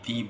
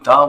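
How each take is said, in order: First: The word is said with a long 'ee' vowel. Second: The word is said with a short 'uh' vowel. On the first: "दी बोले" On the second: "द बोले"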